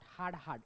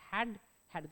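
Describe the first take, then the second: First: The vowel is the long 'aa' of 'hard'. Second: The vowel is the short 'a' of 'dad'. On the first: The speaker calls it wrong. "Not हार्ड हार्ड" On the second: The speaker calls it right. "It's हॅड हॅड. जसं डॅड म्हणतो ना आपण"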